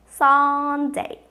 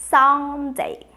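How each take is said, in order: The two takes are said the same way.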